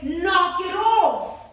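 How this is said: It is said in a hard, forceful tone. The other person will take it seriously. The speaker calls it right. "you stand in a different energy"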